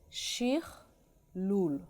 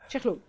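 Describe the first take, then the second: First: The word is said slowly, split into parts. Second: The word is said quickly as one unit. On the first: "Now I'm going to say it slowly" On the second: "It's too fast because it's foreign"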